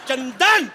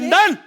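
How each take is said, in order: First: The name is called in a loving tone. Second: The name is called in an angry tone.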